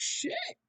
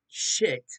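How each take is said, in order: First: It sounds happy and excited. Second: It sounds angry and annoyed.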